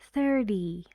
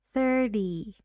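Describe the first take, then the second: First: The middle consonant is a quick d sound. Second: The middle consonant is a quick d sound.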